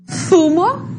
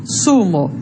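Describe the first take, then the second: First: Zumo with a lisped th at the start, thumo; interdental z. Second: Zumo said with a plain s, sumo; seseo s. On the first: Teacher models the Castilian z for students. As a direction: start Zumo with the tongue between the teeth. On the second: Teacher models seseo for students. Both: Shown as a demonstration. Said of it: "identificar a forma de pronúncia".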